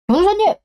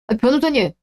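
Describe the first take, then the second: First: Calling out. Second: Said in the usual way. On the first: Acted. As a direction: shout 변호사님 after the lawyer who hung up. Lawyer hangs up mid-call.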